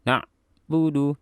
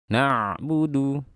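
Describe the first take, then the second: First: The middle sound is cut off with a jolt. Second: The middle sound is held smoothly before budu. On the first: The speaker calls it wrong. "Jangan seperti ini bacanya. Ditekan atau dihentak" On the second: The speaker calls it right. "Jadi kita tahan suara"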